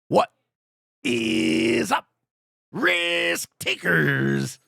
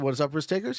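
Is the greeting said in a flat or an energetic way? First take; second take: energetic; flat. First: It is said loudly, with energetic show-host delivery. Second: It is said plainly, in a flat reading voice. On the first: It is the speaker's signature greeting. "the way I say it" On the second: It is just reading out the request. "Yes, I can. In fact, I just did"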